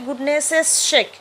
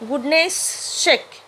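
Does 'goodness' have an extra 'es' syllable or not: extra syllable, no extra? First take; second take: extra syllable; no extra. First: Goodness gets an extra hissing 'es' syllable added. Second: Goodness is said without an extra hissing syllable. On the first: The speaker calls it wrong. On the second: The speaker calls it right.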